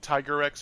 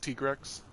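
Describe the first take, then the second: First: The first part sounds like the word tiger. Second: The first part sounds like a short tig. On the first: The speaker calls it wrong. "I said Tiger-X for a long time" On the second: The speaker calls it right. "a lot of people were like, "Uh, it's Tigrex.""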